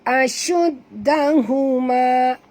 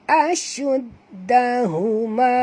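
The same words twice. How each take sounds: Both takes have the same delivery.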